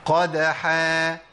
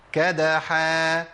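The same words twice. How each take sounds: First: "قدحا" drawn out with qaf from the throat; deep qaf. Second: "كدحا" drawn out with a front kaf; light kaf. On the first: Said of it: "دي بالقاف". (قاف عميقة ممدودة) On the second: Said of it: "بالكاف". (كاف خفيفة ممدودة) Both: Shown as a demonstration.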